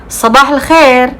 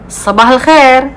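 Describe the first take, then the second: First: It is said in Saudi dialect pronunciation. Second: The same.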